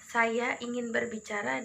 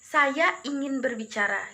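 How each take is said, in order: First: It is said in a moderate, calm tone. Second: It is said in a harsh, loud tone. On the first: It sounds like an ordinary remark. "intonasi pertama tuh menurut mereka adalah intonasi yang sedang saja" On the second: Listeners hear it as angry. "intonasi pelafalan saya yang kedua itu adalah ucapan marah"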